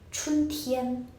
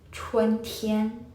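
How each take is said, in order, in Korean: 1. 첫 음절은 평범한 'chun' 소리입니다. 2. 첫 음절에 'e' 소리가 더해져 있습니다. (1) "많은 분들이 이걸 또 어떻게 읽으시냐면" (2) "이렇게 읽어주셔야 된다는 점"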